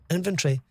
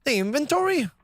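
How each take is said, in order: First: Said in the usual way. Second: High-pitched Irish accent attempt. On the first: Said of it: "how would an Irish person". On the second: Trying how an Irish person would say it, Irish accent. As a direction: put on a lilting Irish voice. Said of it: "how would an Irish person say".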